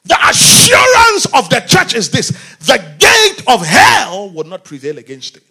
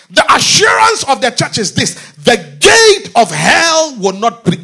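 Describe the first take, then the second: First: Preacher restarts the line even louder for the church; fuller preaching shout. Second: Loud, high preaching declaration; first loud run at the line; preaching shout. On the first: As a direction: hit it harder after the slip. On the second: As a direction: proclaim it to the congregation. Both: Real, not acted. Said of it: "oh my God".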